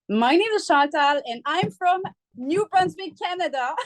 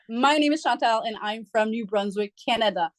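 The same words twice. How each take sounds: First: It is spoken in a French accent. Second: It is spoken in a plain accent. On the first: "You're you're about to hear the accent" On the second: "But you didn't give us the accent"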